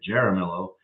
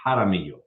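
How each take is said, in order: First: The name has an Americanized pronunciation. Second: The name has its original, non-American pronunciation. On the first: This version was adopted so locals could say it. "we Americanized it ... so we made it Jaramillo" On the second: This is how the family name was meant to sound. "It's actually supposed to be Jaramillo"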